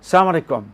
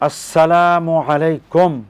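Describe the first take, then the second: First: The vowel in 'sala' is said short. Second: The vowel in 'sala' is drawn out long. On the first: May you be destroyed. The speaker calls it wrong. "এই অশুদ্ধ উচ্চারণ" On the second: Peace be upon you. The speaker calls it right. "আসসালা বলে টান দিলেন এবং উচ্চারণটা সঠিক হলো"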